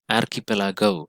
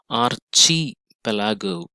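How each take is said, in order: First: The ch is said as a 'k' sound. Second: The ch is said as in 'church'. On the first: The speaker calls it right. "the real pronunciation is archipelago" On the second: The speaker calls it wrong. "It is not chi"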